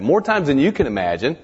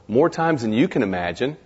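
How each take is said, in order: First: "More times than you can imagine" said louder and higher, stress on "More"; "More" hit hard and the rest pushed up in pitch and volume; emphatic repeat. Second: Said in the usual way. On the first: Shown as a demonstration. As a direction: hammer the line home, louder and higher.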